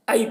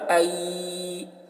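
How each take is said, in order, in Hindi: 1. आवाज़ नरम और छोटी है। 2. आवाज़ खिंची हुई और लंबी है। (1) "ये मारूफ भी हुआ और नरमी भी है इसमें और जल्दी भी है" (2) "ये जल्दी नहीं हुआ, ये खींचा गया"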